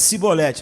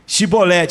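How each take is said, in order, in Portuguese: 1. A palavra começa com som de 's'. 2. A palavra começa com som de 'sh'. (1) "Não tinha esse chiado carioca eles" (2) "fala aí, Chibolete"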